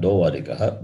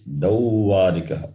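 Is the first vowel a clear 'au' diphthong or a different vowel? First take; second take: different vowel; au diphthong. First: The first syllable has a different vowel. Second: The first syllable has a clear 'au' vowel. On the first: The speaker calls it wrong. "not Dauvarikaha" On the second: The speaker calls it right. "It is Dauvarikaha"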